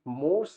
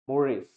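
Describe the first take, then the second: First: The word is said as one syllable. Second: The word is said as two syllables. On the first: The speaker calls it wrong. "मोर्स is not the pronunciation" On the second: The speaker calls it right. "इसका जो pronunciation that is मोरेस"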